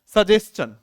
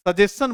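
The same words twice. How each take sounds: First: सजेशन with a clear "ch" in the middle, said loud; सजेशन said out loud with the ch clearly heard; correct pronunciation. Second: सजेशन as students say it, the ch sound dropped; सजेशन said the usual Indian way, without the ch; common mispronunciation. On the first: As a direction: say सजेशन as sa-jes-chan, stressing the ch sound. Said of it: "चे की sound होती है इसमें". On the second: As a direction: say सजेशन as sajeshan, with no ch. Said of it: "चे नहीं बोलते हैं". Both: Shown as a demonstration.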